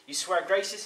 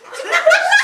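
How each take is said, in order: First: Said in the usual way. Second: Very high, loud comic squeal; squealed oath. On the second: Acted. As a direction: squeak out the vow in falsetto. Trapped devil squeals his oath.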